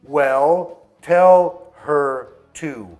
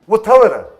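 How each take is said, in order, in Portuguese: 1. Cada palavra é dita com clareza e separadamente. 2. As palavras se misturam numa palavra longa só.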